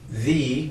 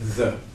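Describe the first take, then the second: First: The vowel is a long 'ee' sound. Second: The vowel is a short 'uh' sound. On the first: It points to something specific. "make it the with a big E" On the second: It is the ordinary everyday use. "the plain old th for the"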